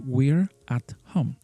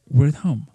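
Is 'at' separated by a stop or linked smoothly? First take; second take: stopped; linked. First: The word 'at' is said fully, with a stop. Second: The word 'at' is reduced and linked smoothly. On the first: The speaker calls it wrong. "when you try to pronounce this sound at entirely, we have to make a stop" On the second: The speaker calls it right. "what we want to say is"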